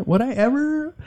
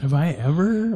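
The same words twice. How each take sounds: First: Ever lifted high; stress on ever. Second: Said in the usual way. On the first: Shown as a demonstration.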